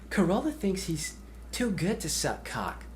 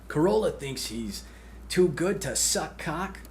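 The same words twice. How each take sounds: First: It is said in a put-on character voice. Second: It is said in a plain, ordinary voice. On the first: The speaker calls it right. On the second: The speaker calls it wrong.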